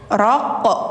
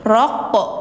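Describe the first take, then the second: Both takes have the same delivery.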